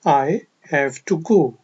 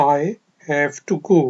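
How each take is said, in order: The two takes are said the same way.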